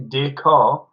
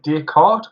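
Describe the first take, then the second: First: Descartes with the last T left silent; silent final T. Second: Descartes with the T pronounced at the end; sounded final T. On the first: Host likening it to a car, Descartes without the T. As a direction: say Descartes ending on an open 'car' sound. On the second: Host asking friends how to pronounce it, Descartes with sounded T. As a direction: say Descartes ending in a hard T. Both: Shown as a demonstration.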